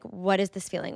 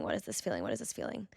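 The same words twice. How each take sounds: First: Said in the usual way. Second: "What is this feeling?" asked much softer and lower, to herself; quiet inner questioning. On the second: Retold or imitated. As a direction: murmur the question inward as if searching. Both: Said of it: "So I sat there in bed and I was like".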